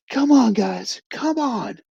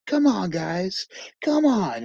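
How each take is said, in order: First: High, loud pleading yell; yelling at his hands. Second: High drawn-out pleading yell, slow; yelling at his hands. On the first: Boy yelling at his hands, high loud frustration. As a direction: beg your own hands to work, shouting up high. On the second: Boy pleading with his hands, slow high yell. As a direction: stretch each word, begging up high. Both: Retold or imitated. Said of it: "yelling at his hands".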